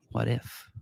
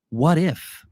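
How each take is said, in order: First: Hushed echo. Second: Higher, emphatic teasing question; raised what-if. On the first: Host letting the contrarian idea sink in, hushed echo. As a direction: drop it to a quiet, pondering echo. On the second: Host floating a contrarian market idea, raised emphatic question. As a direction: pitch the question up. Poses a hypothetical, then echoes it. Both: Real, not acted.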